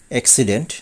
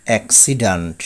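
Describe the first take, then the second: First: অ্যাক্সিডেন্ট ending in "dent"; common mispronunciation. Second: অ্যাক্সিডেন্ট ending in "dant"; corrected pronunciation. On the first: Teacher showing the common way, অ্যাক্সিডেন্ট with "dent". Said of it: "বলে থাকি". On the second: Teacher correcting learners, অ্যাক্সিডেন্ট with "dant". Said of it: "সঠিক উচ্চারণ হবে". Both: Shown as a demonstration.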